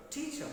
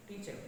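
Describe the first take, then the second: First: "teacher" with extra force on TEA; stress on first syllable. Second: "teacher" in a Telugu accent, syllables unstressed. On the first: Teacher shows the learned version, "teacher" stressed on TEA. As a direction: punch TEA in "teacher", lighter -cher. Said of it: "after you learn this stress". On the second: Teacher shows the untrained version, "teacher" in Telugu accent. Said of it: "according to Telugu accent". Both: Shown as a demonstration.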